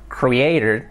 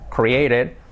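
No difference in how they are said.

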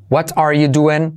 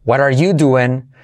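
First: "What are you doing" slow, with a clear t in "What"; careful, separate words in "What are you doing"; full form. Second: "What are you doing" with t of "What" softened to a tap; slow, linked "What are" as "wadar"; soft T. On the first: Teacher models for learners, full "What are you doing". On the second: Teacher shows the soft T, linked "What are". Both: Shown as a demonstration. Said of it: "T como resuave".

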